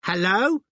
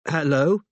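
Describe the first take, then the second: First: Put-on high-pitched little child's voice, questioning lift; tiny shrill toddler hello, rising sharply. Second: Tentative hello with a rising question; careful, questioning phone greeting; cautious. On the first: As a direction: pipe up like a toddler answering the phone. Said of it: "shrill toddler's voice said". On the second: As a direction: answer warily, raised pitch lifting at the end. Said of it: "said Robin cautiously". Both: A narrator's reading.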